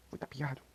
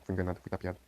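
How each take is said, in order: First: Lightly voiced cartoon bird, higher and softer; a hint of a cheeky cartoon woodpecker complaining he was tricked; Woody Woodpecker voice. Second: Said in the usual way. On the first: Gamer quoting a cartoon after being tricked, light higher woodpecker voice. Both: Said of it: "como o Pica-Pau fala".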